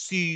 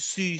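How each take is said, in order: No difference in how they are said.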